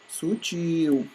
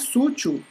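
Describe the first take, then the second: First: The stress is on the second syllable. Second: The stress is on the first syllable. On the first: The speaker calls it right. "e sim sutil" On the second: The speaker calls it wrong. "O correto não é sútil"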